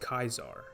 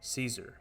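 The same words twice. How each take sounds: First: The name begins with a hard K sound. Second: The name begins with a soft S sound. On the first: This is the classical Latin way. "It was always pronounced as a K" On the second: This is the modern English way. "the modern English pronunciation"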